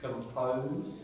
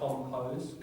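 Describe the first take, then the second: First: The first syllable has a weak schwa vowel. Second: The first syllable has a full, strong vowel. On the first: The speaker calls it right. "The vowel of the syllable would tend to be a schwa" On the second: The speaker calls it wrong. "not compose"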